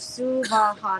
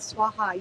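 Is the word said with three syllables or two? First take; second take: three; two. First: The word is said with three syllables. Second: The word is said with two syllables. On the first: The speaker calls it right. "First line, Suvaha" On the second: The speaker calls it wrong. "not Swaha. ... Don't do that"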